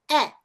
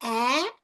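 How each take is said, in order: First: "é" short and open, jaw dropped; short E contrast. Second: "É" stretched wide, as ae, rising; smile-stretch a long "É"; short A contrast. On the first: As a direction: cut "é" short. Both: Shown as a demonstration. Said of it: "Tá vendo a diferença".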